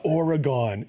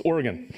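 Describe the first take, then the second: First: "Oregon" said the wrong way, the way he was corrected for; mock the mispronounced "Oregon"; wrong pronunciation. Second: "Oregon" said as OR-uh-gun, short and clipped at the end; correct local pronunciation. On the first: Host recalls being corrected out there, wrong "Oregon". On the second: Host gives viewers the corrected "Oregon" the local way. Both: Shown as a demonstration. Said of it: "Boy, did I get corrected".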